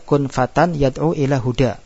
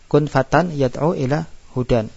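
First: The final word ends with a vowel. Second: The final word ends with an n sound. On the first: The reader stops at this word. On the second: The phrase continues without stopping.

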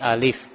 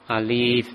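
First: The vowel is kept short. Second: The vowel is drawn out long. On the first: The speaker calls it right. "Tidak dipanjangkan ya" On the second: The speaker calls it wrong. "tidak seperti itu"

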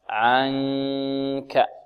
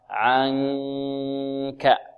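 Both takes have the same delivery.

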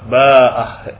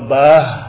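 First: A long vowel and glottal stop precede final h. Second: A short vowel without glottal stop precedes final h. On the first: "Kalau alif dengan ba, ba'ah. Ini mad namanya. Dengan ha" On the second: "dengan ha tanpa mad. Tanpa mad artinya tanpa hamzah"

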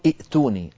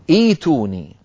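First: A glottal stop closes the first syllable. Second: The stop becomes a long 'ee' vowel. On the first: The speaker calls it wrong. "لا يصح أن نقول ائتوني" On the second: The speaker calls it right. "لابد أن نقول ائتوني"

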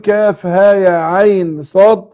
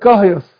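First: Each letter is spoken by its full name. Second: The letters are run together as one word. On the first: The speaker calls it right. "بدل ما يقول كاف ها يا عين صاد" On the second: The speaker calls it wrong. "قرأ على حسب الايه حروفها"

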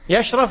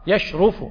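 First: The middle vowel is not u. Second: The middle vowel is u. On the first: The speaker calls it wrong. "غلط" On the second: The speaker calls it right. "فالمضارع منه لابد أن يكون مضموما"

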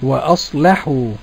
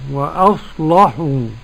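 First: The L sound is thin and light. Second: The L sound is thick and heavy. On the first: This is the reading of the other reciters. "والباقون وأصلحوا" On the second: This is the reading of one reciter tradition. "غلظ ورش اللام، وأصلحوا يعني ورش"

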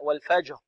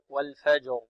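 First: The final r is said without voicing. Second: The final r is fully voiced. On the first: The speaker calls it wrong. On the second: The speaker calls it right.

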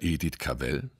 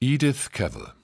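First: Cavell is stressed on its second syllable. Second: Cavell is stressed on its first syllable. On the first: This is the continental way of saying it. "als reime sich der Name auf Hell" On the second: This is the British way of saying it. "In Großbritannien wird das A betont, wie beim englischen Travel"

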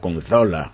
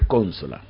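First: The stress is on the second syllable. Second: The stress is on the first syllable. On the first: The speaker calls it wrong. "como lo dicen los españoles" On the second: The speaker calls it right. "es una esdrújula"

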